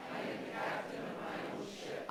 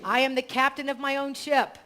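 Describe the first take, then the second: First: Faint congregation repeating from afar; distant group recitation; group echo. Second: Affirmation read. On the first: Real, not acted. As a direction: murmur it back as a crowd. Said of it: "you can repeat it together". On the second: Shown as a demonstration. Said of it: "So I'll say it".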